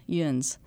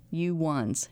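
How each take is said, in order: First: "yuns" said as one syllable, yunz, falling. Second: "You ones" said as two clear words; full form. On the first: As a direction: clip "You ones" down to "yuns". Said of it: "yuns is more historically accurate". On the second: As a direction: spell out "You ones" slowly and plainly. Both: Shown as a demonstration.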